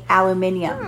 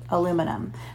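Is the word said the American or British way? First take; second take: British; American. First: It is said with the British pronunciation. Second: It is said with the American pronunciation. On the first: "if you were to live in England, you would say aluminium" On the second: "people that live in the United States usually say aluminum"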